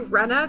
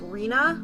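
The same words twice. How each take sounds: First: The name is said with the anime pronunciation. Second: The name is said with the other pronunciation. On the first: "that's how they pronounce it in the anime" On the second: "even though it is Rena"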